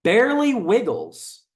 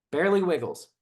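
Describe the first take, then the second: First: Barely Wiggles read out slow, high and loud; slow, loud, high showman read of Barely Wiggles; dramatic reading. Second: Said in the usual way. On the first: Shown as a demonstration. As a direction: announce Barely Wiggles like a headline. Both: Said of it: "Look at the comments".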